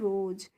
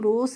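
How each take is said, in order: First: The word ends with a z sound. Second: The word ends with an s sound. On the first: The speaker calls it right. "एस के बाद जब ई आती है तो उसका हम उच्चारण करते हैं ज" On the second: The speaker calls it wrong. "इसे हम रोज नहीं पढ़ते हैं"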